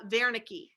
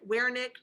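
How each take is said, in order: First: The name is said with a German pronunciation. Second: The name is said with an English pronunciation. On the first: "the German pronunciation is uh" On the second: "If you want to pronounce it Wernicke, Wernicke, that's fine"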